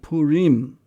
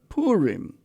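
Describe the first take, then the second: First: It has the Eastern traditional pronunciation. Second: It has the Western pronunciation. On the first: "In the Eastern tradition, it is called" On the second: "Among the Westerners, it is often called"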